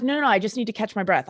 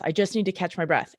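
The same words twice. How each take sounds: First: Quick, light imitation of a thick Australian accent. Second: Put-on light, understated Australian accent on the repeat; a hint of an Aussie player shrugging it off. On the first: Injured Australian player insisting he's fine, light Australian accent. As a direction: rattle it off like a winded Aussie footballer brushing it off. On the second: Injured Australian player repeating he's fine, faint Australian accent. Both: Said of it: "in a very thick Australian accent".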